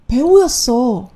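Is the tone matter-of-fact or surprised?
surprised. It is said in a surprised, realizing tone. The speaker has just realized he is an actor. "我们稍微换一下这个语气"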